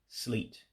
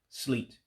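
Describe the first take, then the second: The two takes are said the same way.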